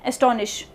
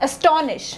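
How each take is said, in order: First: "Astonish" with no weight on the STON syllable; wrong-example "Astonish", middle syllable underplayed; wrong stress. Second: "astonish" as a-STON-ish, STON brought out; primary syllable stress. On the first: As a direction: let "Astonish" pass evenly, STON left unstressed. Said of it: "इन syllables पे ध्यान नहीं देंगे". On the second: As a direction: lean firmly on STON in "astonish". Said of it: "give more importance to the primary syllables". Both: Shown as a demonstration.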